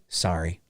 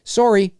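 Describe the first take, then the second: First: "sorry" as SAR-ee, low and soft; American "sorry". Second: "sorry" as SORE-ee, pitched up; higher, rounded "o" in sorry; Canadian "sorry". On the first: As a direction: open "ah" in sorry. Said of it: "You guys say sorry". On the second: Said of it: "We say sorry". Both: Shown as a demonstration.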